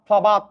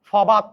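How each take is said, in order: Both takes have the same delivery.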